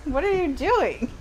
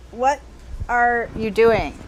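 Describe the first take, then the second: First: High, amused disbelief; laughing at the author's choice; incredulous. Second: Slow, deliberate disbelief; slow emphatic. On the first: Reader mocking an author's choice, high and amused. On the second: Reader scolding the absent author, slow and deliberate. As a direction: spell out each word to the author. Repeats the question slowly. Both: Acted.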